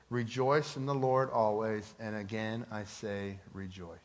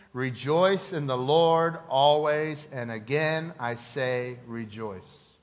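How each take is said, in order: First: Said in the usual way. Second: Slow, deliberate, louder on the Lord; slow recitation. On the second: Shown as a demonstration. Preacher leading the congregation in a slow verse. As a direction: recite it slowly, leaning on Lord. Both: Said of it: "Would you say that with me?".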